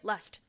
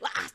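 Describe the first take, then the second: First: The word is said in a normal voice. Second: The word is screamed loudly.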